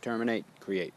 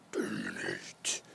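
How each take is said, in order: First: Said in the usual way. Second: "Terminate" breathed out as a low, slow whisper. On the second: Shown as a demonstration. Teacher contrasting the breath's end and start, whispering "Terminate". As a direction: let "Terminate" die away into a whisper.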